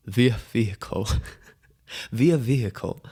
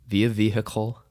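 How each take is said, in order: First: "via vehicle" savoured, breaking into a laugh; laughing repeat. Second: Said in the usual way. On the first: Shown as a demonstration. Host amused by his own phrase, laughing. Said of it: "Too funny".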